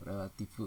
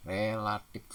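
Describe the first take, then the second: First: "Relatif" with a changed ending, like "relatip"; softer "Relatif" closed on P; nonstandard pronunciation. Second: "Relatif" said clearly with final F; careful model of "Relatif" ending in F; standard pronunciation. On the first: Teacher shows wrong form, "Relatif" as relatip. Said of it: "tidak baku". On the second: Teacher models standard word, clear "Relatif". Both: Shown as a demonstration.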